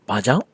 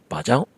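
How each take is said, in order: No difference in how they are said.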